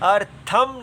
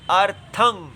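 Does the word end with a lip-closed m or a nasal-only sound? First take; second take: lip-closed m; nasal-only. First: The word ends with a full m, lips closed. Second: The word ends with air through the nose only. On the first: The speaker calls it wrong. "अर्थम नहीं पढ़ना चाहिए" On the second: The speaker calls it right. "केवल नासिका से निकले तो इसकी आवाज होगी अर्थं"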